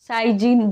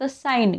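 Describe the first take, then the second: First: A g sound is pronounced before the n. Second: No g sound is pronounced before the n. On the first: The speaker calls it wrong. "जचा उच्चार नाही होता इथे" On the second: The speaker calls it right. "फक्त साइन यनचा उच्चार होतोय"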